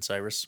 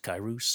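First: The name begins with an s sound. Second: The name begins with a k sound. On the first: This is the usual English pronunciation of the name. The speaker calls it wrong. "not fucking Cyrus. We just pronounce it Cyrus" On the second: This is the original pronunciation of the name. The speaker calls it right. "but pronounced Kairos"

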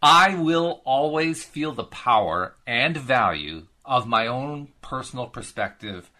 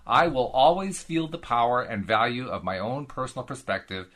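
First: It is read at a slow pace. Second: It is read at a fast pace.

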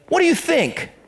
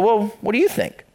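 First: It sounds sarcastic and pushing away. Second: It sounds warm and genuinely interested.

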